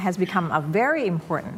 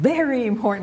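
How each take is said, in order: First: "very" gently lifted, without jumping out; natural stress on VERY. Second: "very" leaping up high and stretched out; overdone stress on VERY. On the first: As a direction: give "very" a modest, unforced emphasis. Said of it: "ไม่ต้องโดดขึ้นมามากเกินไป". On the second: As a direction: exaggerate "very" far beyond what is needed. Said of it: "อย่างเงี้ย ไม่จำเป็น". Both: Shown as a demonstration.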